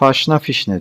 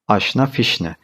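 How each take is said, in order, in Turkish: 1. İlk kelime h sesiyle başlıyor. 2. İlk kelime ünlü sesiyle başlıyor. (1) "Haşna fişne diyoruz. Böyle bir kullanım yanlış" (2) "Doğrusu aşna fişne"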